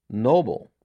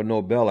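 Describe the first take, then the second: First: Nobel stressed on the first syllable, NOH-bul. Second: Nobel stressed on the last syllable, no-BELL. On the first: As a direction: say Nobel to rhyme with "noble". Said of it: "or Nobel, I should say". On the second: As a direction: say Nobel with a clear "bell" ending. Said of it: "I should say". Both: Shown as a demonstration.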